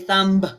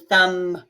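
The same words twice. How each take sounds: First: A B sound is heard at the end. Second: No B sound is heard at the end. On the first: The speaker calls it wrong. "we usually don't say thumb" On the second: The speaker calls it right. "We say thumb. And you don't hear the B"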